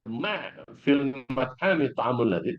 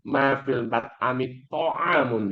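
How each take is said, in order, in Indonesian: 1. Tekanan jatuh pada kata pertama, ma. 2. Tekanan jatuh pada kata ta'amun. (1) "kalau Anda tekan pada ma" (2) "kalau Anda tekan pada kata to'am"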